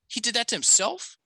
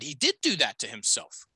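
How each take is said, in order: First: It sounds unsure, like a question. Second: It sounds sure, like a plain statement.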